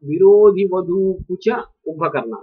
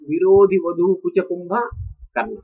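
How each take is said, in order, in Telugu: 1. Kumbhakarna ని విరుపు లేకుండా ఒకే పదంగా అంటారు. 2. kumbha మరియు karna మధ్య విరుపు ఉంది. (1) "రామాయణంలో" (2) "ఇది విరుపు"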